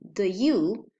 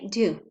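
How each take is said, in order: First: A weak schwa vowel follows the d sound. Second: The d joins you with no vowel between. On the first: "instead of saying the you" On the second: "we will say do"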